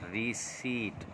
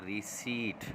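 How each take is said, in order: The two takes are said the same way.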